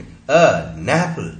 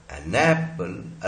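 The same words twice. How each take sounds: First: An apple said very slowly as a napple, the n moving onto apple; a napple, very slow, n pulled onto the vowel; connected speech. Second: An apple said slowly, two words with a break before apple; slow, keep an and apple apart; an apple pronounced slowly as two separate words. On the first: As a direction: stretch it out so the n leads apple. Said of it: "ये नैपल हो गया". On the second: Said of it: "अलग-अलग तो बोलेंगे नहीं". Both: Shown as a demonstration.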